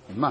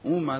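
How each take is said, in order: First: The stress is on the last syllable. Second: The stress is on the first syllable. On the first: The speaker calls it right. "אומה זה מלרע" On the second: The speaker calls it wrong. "אומה זה מלעיל, זה לא שייך"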